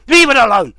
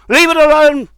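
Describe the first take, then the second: First: Angry demand. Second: Higher, louder furious shout. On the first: Furious rant at David Seymour. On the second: Ordering David Seymour off the constitution, furious shout. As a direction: yell the order at full force. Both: Real, not acted.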